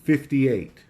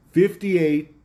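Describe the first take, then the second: First: Said in the usual way. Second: "Fifty-eight" said higher and louder, hammered home; scornful stress on the number. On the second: Real, not acted. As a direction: hit "Fifty-eight" hard to show how small it is. Repeats the number for effect.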